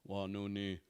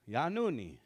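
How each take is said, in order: First: The pitch stays flat on one level. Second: The pitch goes higher, then lower. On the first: The speaker calls it wrong. "We always try to remember to not go" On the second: The speaker calls it right. "kind of goes here a little higher and then a little lower"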